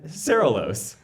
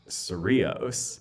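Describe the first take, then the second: First: The name is pronounced in a garbled, altered form. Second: The name is pronounced in its usual local form. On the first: The speaker calls it wrong. "Cerelos was the way it was doing it back then" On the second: The speaker calls it right. "or mispronounced the word Cerritos"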